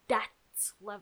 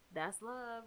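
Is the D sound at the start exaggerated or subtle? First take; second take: exaggerated; subtle. First: The first sound is a strongly exaggerated D. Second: The first sound is a light, unexaggerated D. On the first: "so overpronounced even. They make it so obvious that it's a D" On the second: "It's not like that's love or whatever"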